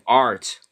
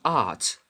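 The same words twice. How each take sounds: First: The final R sound is clearly pronounced. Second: The final R sound is dropped. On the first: This is the American way. "in American English they just uh, add an R" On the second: This is the British way. "not art"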